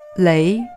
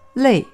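First: The tone rises from mid to high. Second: The tone falls sharply from high to low. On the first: It means a rope, or to bind or entangle. "读2声累的时候" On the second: It means tired from hard work. "读4声累"

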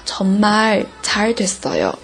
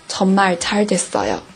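First: The first word is stressed with strong feeling. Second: The phrase is said evenly with little feeling. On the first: "정말就是会强调一下，真的是太好了，所以会带感情色彩" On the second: "这个就是比较平的了"

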